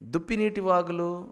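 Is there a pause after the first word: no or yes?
no. The first two words run together without a pause. It sounds like streams of deer-water. The speaker calls it wrong.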